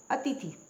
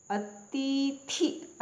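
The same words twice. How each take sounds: First: अतिथि quick, short i's, a-ti-thi; correct pronunciation. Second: अतिथि very slow, long ee's, a-tee-thee; wrong pronunciation. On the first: Teacher correcting learners, अतिथि said short as a-ti-thi. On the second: Teacher showing a misspelling, अतिथि dragged as a-tee-thee. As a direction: stretch both i's in अतिथि, high. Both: Shown as a demonstration. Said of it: "अतिथि नहीं होती".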